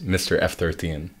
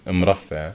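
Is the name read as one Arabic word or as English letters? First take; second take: English letters; Arabic word. First: The name is said as English title and numbers. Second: The name is said as one Arabic word. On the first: "if you're English and you're reading it"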